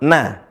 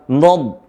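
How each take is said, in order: First: The n is said light and thin. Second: The n is said heavy and thick. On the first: The speaker calls it right. "yang benar adalah na" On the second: The speaker calls it wrong. "jangan sampai nun ikut tebal, bukan nad"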